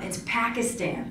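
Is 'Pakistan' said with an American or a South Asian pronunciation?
American. Pakistan is said with an American pronunciation. Other people are correcting how the country's name is said. The speaker calls it wrong. "Why do you say your country with an accent?"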